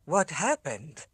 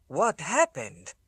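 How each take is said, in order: First: Miserable repeat. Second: Put-on strange accent. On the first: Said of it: "utterly miserable". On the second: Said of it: "His voice had a strange accent". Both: A narrator's reading.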